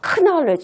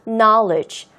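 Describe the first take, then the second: First: The word begins with an audible K sound. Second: The word begins with an N sound, K silent. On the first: The speaker calls it wrong. "knowledge 이렇게 하는 게 아니라" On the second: The speaker calls it right. "K가 묵음이 되는 거예요"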